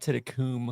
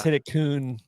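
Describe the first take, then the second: First: The name ends with an m sound. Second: The name ends with an n sound. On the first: The speaker calls it wrong. "you're saying with an M" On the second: The speaker calls it right.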